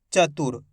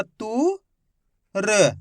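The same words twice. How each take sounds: First: Said in the usual way. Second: तु drawn out with a rise, then र alone; letter by letter. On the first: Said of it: "तो मिलके बन जाएगा". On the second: Shown as a demonstration. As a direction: sound out तु... र with a pause. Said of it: "एक एक अक्षर की पहचान करो".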